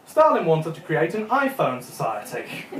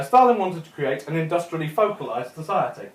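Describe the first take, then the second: First: Subtitle misreading. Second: Said in the usual way. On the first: Retold or imitated. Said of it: "Do you know what subtitle said?". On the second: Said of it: "the narrator said".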